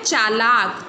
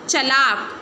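First: The first vowel is long. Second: The first vowel is short. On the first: The speaker calls it right. "च के पीछे भी आ की मात्रा आएगी" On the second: The speaker calls it wrong. "चलाक कुछ नहीं होता"

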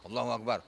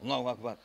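No difference in how they are said.

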